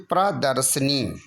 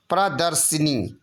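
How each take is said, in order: First: प्रदर्शिनी said pra-dar-sa-nee; no middle i. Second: प्रदर्शिनी with si before nee; extra short i. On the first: Teacher giving the correction, प्रदर्शिनी with sa-nee. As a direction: drop the i before nee in प्रदर्शिनी. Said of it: "क्या होना चाहिए". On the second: Teacher showing the error, प्रदर्शिनी with an added i. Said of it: "छोटी ई की मात्रा लगी". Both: Shown as a demonstration.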